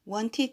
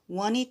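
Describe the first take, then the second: First: The middle has a clear t sound. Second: The t is replaced by an n sound.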